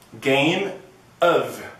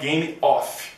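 First: The word 'of' ends with a V sound. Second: The word 'of' ends with an F sound. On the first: The speaker calls it right. "você tem o som de of, som de V" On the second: The speaker calls it wrong. "não é Game of"

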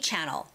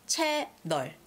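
First: It is said with smooth English pronunciation. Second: It is said with choppy Korean syllables. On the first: "We say channel" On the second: "but we say 채널"

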